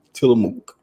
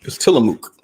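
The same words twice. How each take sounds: First: Said in the usual way. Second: Breathy close-mic whisper; ASMR whisper. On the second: Pretend. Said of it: "He did the A S M R".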